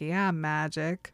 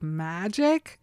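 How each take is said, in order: First: "Yeah, magic." slow and lower, as a confirmation; confirming reply. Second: "Magic?" drawn out with a rising, doubting tune; questioning echo. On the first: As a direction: answer "magic" back slowly, standing by it. She confirms it back to him. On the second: He questions her belief in magic. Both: Retold or imitated.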